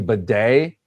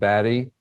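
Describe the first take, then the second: First: The name sounds like 'bidet', stressed at the end. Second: The name sounds like 'batty', with a short a. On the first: "change the pronunciation ... to Bidet" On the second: "from Batty and Beatty"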